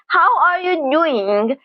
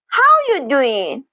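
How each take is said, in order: First: Every word is said fully and clearly. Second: It is said quickly, with the 'are' dropped.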